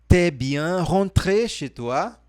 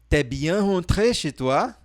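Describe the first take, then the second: No difference in how they are said.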